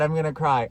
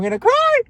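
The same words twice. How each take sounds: First: Said in the usual way. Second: High, loud tearful wail; playful teary squeal; mock wail. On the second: Real, not acted. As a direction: squeal it like you might burst into tears.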